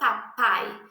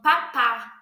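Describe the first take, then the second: First: The word ends with an 'ai' glide. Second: The word ends with a plain 'a' sound. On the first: This is the adult form of the word. The speaker calls it right. "ele não vai falar a palavra papai da maneira correta" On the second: This is how a baby says the word. The speaker calls it wrong. "você vai ver o bebê falando papá"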